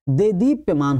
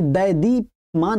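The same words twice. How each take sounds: First: देदीप्यमान said with "de" at the start; teacher's correct model, देदीप्यमान as "de-deepyamaan"; correct first vowel. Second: दैदीप्यमान said with "dai" at the start; teacher's wrong example, दैदीप्यमान as "dai-deepyamaan"; wrong first vowel. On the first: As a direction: keep a pure "de" opening in देदीप्यमान. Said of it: "होता है". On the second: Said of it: "नहीं होता है". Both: Shown as a demonstration.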